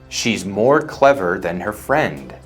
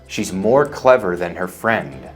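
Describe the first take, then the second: No difference in how they are said.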